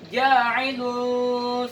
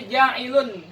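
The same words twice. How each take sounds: First: The n sound is hidden and nasalized. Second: The n sound is pronounced clearly. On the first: The speaker calls it right. "tapi dibaca ja'ilun fil ardi" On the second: The speaker calls it wrong. "bukan lagi dibaca nun ya, bukan dibaca ja'ilun"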